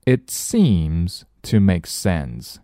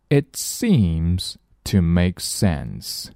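First: Slow, clear example sentence again; slow repeat. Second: Slow, clear example sentence; slow model reading. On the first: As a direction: repeat it slowly for learners. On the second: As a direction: read it out slowly for learners. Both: Shown as a demonstration. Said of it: "我们来看例句".

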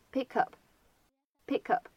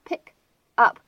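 First: "pick up" joined as "pi-kup"; linked. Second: "pick" and "up" with a gap between; separate words. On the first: Teacher demonstrating linking in "pick up". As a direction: carry the K of "pick" into "up". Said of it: "可以有一个连读". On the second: Teacher naming the words before linking, unlinked. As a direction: say "pick", pause, then "up". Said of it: "出现在一起呢". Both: Shown as a demonstration.

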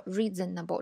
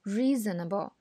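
First: Reasonable as four separate equal beats; REE-ZEN-NA-BO, not flowing; disconnected syllables. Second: Reasonable flowing as one word from a long REE; REEE-znəbl, connected like music; smoothly linked syllables. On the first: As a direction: unlink the syllables of reasonable, each one full. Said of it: "所以我们不能说reasonable这种东西". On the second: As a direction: glide through reasonable, first vowel long, rest light. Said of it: "这个连贯". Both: Shown as a demonstration.

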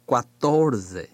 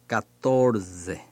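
First: "quatorce" opening with a kwa sound; variant with w. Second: "catorce" opening with a plain ka; variant without w. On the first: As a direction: keep the w glide in "quatorce". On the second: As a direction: drop the w glide in "catorce". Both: Shown as a demonstration. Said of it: "也可以念catorce".

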